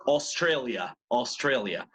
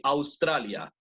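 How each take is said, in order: First: Australia starting with "os". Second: Australia starting with "aus"; Spanish pronunciation. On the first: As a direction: say Australia as "os-trei-lia". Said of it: "A con U, O". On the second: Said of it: "You spell it the same as in Spanish". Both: Shown as a demonstration.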